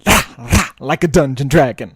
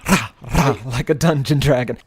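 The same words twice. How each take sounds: First: It is said forcefully, with rolled R's. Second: It is said flatly, without conviction.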